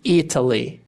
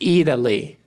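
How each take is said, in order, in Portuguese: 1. O T soa como um T claro. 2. O T soa como um R rápido. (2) "podem ser pronunciados como R"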